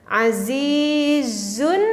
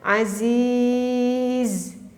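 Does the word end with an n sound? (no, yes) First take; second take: yes; no. First: The word ends with an audible n sound. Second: The word ends without any n sound. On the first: The reading continues into the next word. "Kalau kita membacanya kita diteruskan ... ada nunnya terdengar" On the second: The reading stops at this word. "Karena membacanya kita berhentikan"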